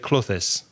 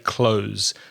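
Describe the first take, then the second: First: The word is said as two syllables. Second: The word is said as one syllable. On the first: The speaker calls it wrong. "you make it two syllables" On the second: The speaker calls it right. "just say clothes"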